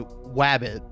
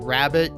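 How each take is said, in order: First: The word begins with a W sound. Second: The word begins with a clear R sound. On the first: The speaker calls it wrong. "you say wabbit" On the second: The speaker calls it right. "instead of saying rabbit"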